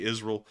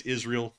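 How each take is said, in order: First: "Israel" with a reduced last syllable, IZ-rul; Southern pronunciation. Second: "Israel" with a clear "ee" in the last syllable, IZ-reel; others' pronunciation. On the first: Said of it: "That's because we're from the South". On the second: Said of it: "some people say it's Israel". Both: Shown as a demonstration.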